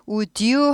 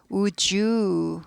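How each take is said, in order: First: "would you" drawn out with a hard d, woo-dyoo; slow "would you", d left hard; unblended would you. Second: "would you" drawn out as woo-jooo; slow "would you", d turned to j; softened would you. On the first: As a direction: slowly keep d apart from j in "would you". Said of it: "would you 하지 않고". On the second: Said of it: "부드럽게 발음되죠". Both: Shown as a demonstration.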